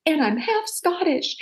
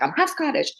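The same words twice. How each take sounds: First: Put-on high, slow, stubborn little-girl protest; childish insistence. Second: Put-on high, insistent little-girl retort; stubborn repeat. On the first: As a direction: insist like a stubborn kid in an argument. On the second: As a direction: fire it back like a stubborn kid. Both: Arguing with grandma as a kid.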